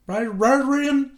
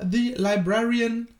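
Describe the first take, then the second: First: "Librarian" drawn out and garbled, pitched higher; garbled mumble. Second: Said in the usual way. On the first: Real, not acted. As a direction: stumble through "Librarian" as if the mouth were full of broccoli. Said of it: "Brokkoli ohne Ende im Mund". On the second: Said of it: "Ich kann dieses Wort einfach nicht aussprechen".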